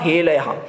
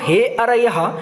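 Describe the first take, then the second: First: The middle consonant is an l sound. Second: The middle consonant is an r sound. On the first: The word is spoiled and loses its meaning. The speaker calls it wrong. "र को उन्होंने लौ कर दिया" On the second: It addresses the listeners as enemies. The speaker calls it right. "हे अरयः ऐसे बोलने की जगह"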